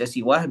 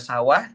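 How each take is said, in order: First: The first vowel is an i sound. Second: The first vowel is an a sound. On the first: "ini bisa dibaca siwah" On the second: "bisa dibaca sawah"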